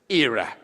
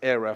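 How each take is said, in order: First: The word is said with a British pronunciation. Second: The word is said with an American pronunciation. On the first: "for the British-speaking people, I would say that era" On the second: "I say era for Jacob because he's an American"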